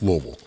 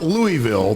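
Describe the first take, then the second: First: "Louisville" said low as "LOH-vul"; Kentucky pronunciation. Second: "Louisville" said slowly as "LOO-ee-vill"; wrong pronunciation. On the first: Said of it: "It's Louisville". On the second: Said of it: "It's not". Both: Shown as a demonstration.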